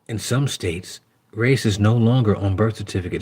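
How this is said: It is read in a put-on, imitated voice.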